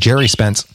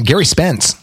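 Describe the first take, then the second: First: The name begins with a soft J sound. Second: The name begins with a hard G sound.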